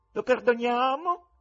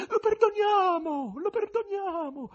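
First: High, loud, slow asking, rising at the end; rising question. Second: Very high, drawn-out falling cries; echoing female voices. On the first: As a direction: put it to the crowd, lifting the end of perdoniamo. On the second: Women in the audience answer, very high falling cries. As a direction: call perdoniamo in a high feminine wail, falling at the end. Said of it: "echeggiarono delle voci, dapprima isolate e in prevalenza femminili". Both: A narrator's reading.

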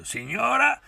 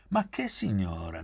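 First: Very high, loud call; shouted call. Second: Said in the usual way. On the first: A narrator's reading. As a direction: cry out to the lady across the table. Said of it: "gridò Pieretto". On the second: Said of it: "disse lei".

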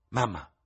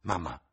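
First: Secondo "mamma" più acuto e più forte; "mamma" gridato con slancio verso l'alta; esclamazione. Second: Said in the usual way. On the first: Acted. (figlia che chiama la madre, esclamando) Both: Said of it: "esclamò".

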